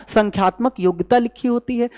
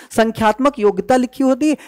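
Both takes have the same delivery.

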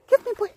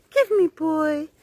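First: Quick, high-pitched coax; high dog talk. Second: Drawn-out, slow coaxing. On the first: Owner asking Zeus for the ball, quick high chirp. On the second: Owner asking Zeus again for the ball, slow stretched coax. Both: Real, not acted.

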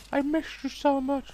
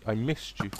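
First: Very high sing-song pun; mock sweet. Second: Said in the usual way. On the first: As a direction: coo it like a lovesick reunion. Pun on missing shot.

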